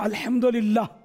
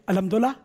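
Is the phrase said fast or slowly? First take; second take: slowly; fast. First: The phrase is said slowly and carefully. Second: The phrase is said fast and run together. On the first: The speaker calls it right. "جیسے میں نے بولا نا تو یہ ابھی بول لیں گے" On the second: The speaker calls it wrong. "جب اسپیڈ پکڑتے ہیں نا فاسٹ بولنگ"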